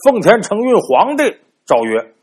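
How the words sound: The phrase breaks after the sixth syllable. The emperor is the one who follows heaven's mandate. The speaker calls it right. "所以断句应该是奉天承运皇帝诏曰"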